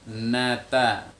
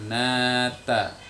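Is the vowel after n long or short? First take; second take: short; long. First: The first vowel is short. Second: The first vowel is held long. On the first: "tidak ada tempo suara yang memanjang. Biasa ya" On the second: "dibaca panjang"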